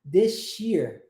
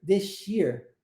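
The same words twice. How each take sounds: No difference in how they are said.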